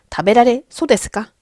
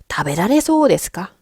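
First: The vowel in 'sou' is cut short. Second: The vowel in 'sou' is held long. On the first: The speaker calls it wrong. "이러시면 절대 안 돼요" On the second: The speaker calls it right. "이소 데스는 장음 처리하셔야 돼요"

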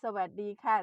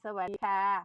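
No difference in how they are said.

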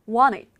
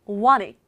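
Both takes have the same delivery.

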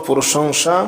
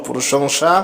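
Both takes have the same delivery.

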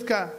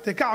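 First: The first two consonants are run together. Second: A short vowel follows the first consonant. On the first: The speaker calls it wrong. "מה זה תקע?" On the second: The speaker calls it right. "שווה בראש מילה תמיד זה שווה נע"

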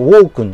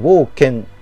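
First: The second syllable is said as 'kun'. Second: The second syllable is said as 'ken'. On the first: The speaker calls it wrong. "ウォークンじゃなくて" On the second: The speaker calls it right. "ウォーケンって読むらしいんですけど"

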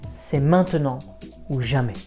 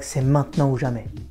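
First: It is said at a slower pace. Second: It is said at a fast pace.

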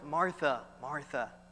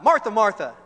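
First: It is said in a kind, calming voice. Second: It is said in a yelling, scolding voice.

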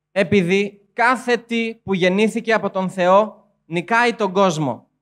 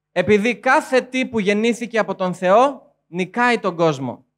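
The two takes are said the same way.

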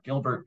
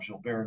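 First: The name is said with English pronunciation. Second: The name is said with French pronunciation. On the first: The speaker calls it wrong. "not Gilbert" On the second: The speaker calls it right. "That's why I call him Gilbert"

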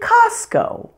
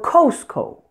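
First: The first vowel is an open 'ah' sound. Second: The first vowel is a rounded 'oh' sound. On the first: The speaker calls it right. "it may be pronounced as ah" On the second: The speaker calls it wrong. "I've heard many non-native speakers say"

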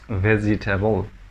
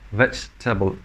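First: The word is said with four syllables. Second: The word is said with three syllables. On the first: The speaker calls it wrong. "not vegetable" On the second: The speaker calls it right. "Say veg, then table"

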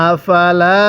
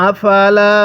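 No difference in how they are said.

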